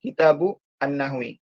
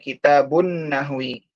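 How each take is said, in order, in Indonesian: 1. Tiap kata diucapkan terpisah, berakhir dengan u. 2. Kedua kata itu menyambung karena huruf n-nya bertasydid. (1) "Kalau dibaca satu-satu" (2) "langsung dimasukkan ke nunnya"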